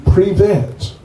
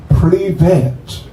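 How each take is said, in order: First: "Privet" repeated with a small laugh, falling; a cheerful "Privet" with a chuckle; Russian hi. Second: "Privet" said clearly with a rolled r, stress on the first syllable; a clear two-syllable "Privet"; Russian hi. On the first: Modelling the Russian hi for the guests, lightly laughing. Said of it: "just two syllables". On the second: Showing the crowd how to greet the swami, clear and simple. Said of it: "how you say hi in Russian". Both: Shown as a demonstration.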